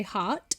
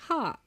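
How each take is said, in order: First: "heart" with a crisp final T; "heart" ending on a hard T; British heart. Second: "heart" with the T dropped, trailing off; "heart" sung-style, soft R and no T; singer's soft heart. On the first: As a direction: say "heart" the British way, T sharp at the end. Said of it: "some people would say heart". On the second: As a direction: let "heart" fade out with no final T. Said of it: "but I would say heart". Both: Shown as a demonstration.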